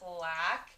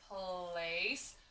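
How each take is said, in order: First: Short a vowel with a hard k sound. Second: Long a vowel with a soft s sound. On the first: The speaker calls it wrong. "C says ka ... doesn't seem like it sounds right" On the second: The speaker calls it right. "C can also say S ... sounds like a word that I know"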